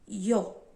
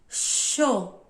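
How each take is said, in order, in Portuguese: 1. Começa com um som parecido com ee. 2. Começa com um som parecido com sh. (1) "tem o som de I também" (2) "tem o som de é, X ou C H"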